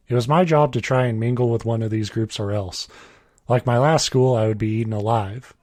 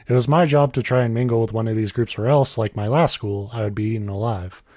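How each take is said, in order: First: Full stop and pause after "else"; misread sentence break. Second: No full stop after "else"; one sentence. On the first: Real, not acted. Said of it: "that was my bad reading it". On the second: Shown as a demonstration. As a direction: run "or else" straight on into "like my last school". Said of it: "It's one sentence".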